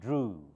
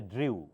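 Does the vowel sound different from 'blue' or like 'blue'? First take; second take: like blue; different. First: The vowel matches the vowel in blue. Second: The vowel differs from the vowel in blue. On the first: The speaker calls it right. "like blue" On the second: The speaker calls it wrong. "Do not say drew"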